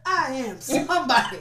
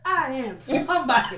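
First: It is said in a rousing, preacher-like voice. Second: It is said in a rousing, preacher-like voice.

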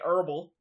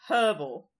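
First: The word begins without any h sound. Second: The word begins with an audible h sound. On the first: This is not how Americans usually say it. "They don't say herbal" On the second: This is how Americans usually say it. "usually you do say the H"

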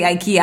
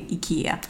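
First: The name is said the American way. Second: The name is said the Swedish way. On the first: "The Americans say IKEA" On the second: "But Swiss would say IKEA"

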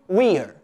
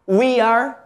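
First: It is said as one shorter contracted form. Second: It is said as two full words.

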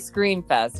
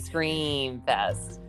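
First: The vowel in 'Scream' is short and plain. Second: The vowel in 'Scream' is stretched out long. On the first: The speaker calls it wrong. "You don't say Scream Fest" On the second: The speaker calls it right. "that's how they said in the commercial every time. And it has 3 E's"

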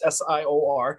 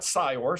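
First: Each letter is spoken separately. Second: The letters are blended into one word. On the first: The speaker calls it right. "it's SIOR" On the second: The speaker calls it wrong. "it's not SIOR. We don't put all the letters together"

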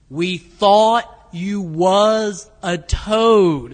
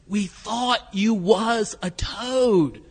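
First: It is said slowly and deliberately. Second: It is said at normal speed.

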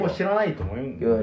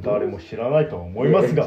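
First: It is said in a relaxed, normal manner. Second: It is said in a stiff, formal manner.

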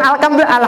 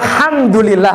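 First: The h sound is replaced by another sound. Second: The h sound is clearly pronounced. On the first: The speaker calls it wrong. "bukan alhamdulillah" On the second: The speaker calls it right. "alhamdulillah harusnya"

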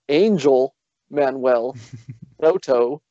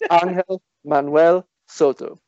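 First: The name is said with English pronunciation. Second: The name is said with Spanish pronunciation. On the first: The speaker calls it wrong. "It is not" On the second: The speaker calls it right. "I know that's how you pronounce it"

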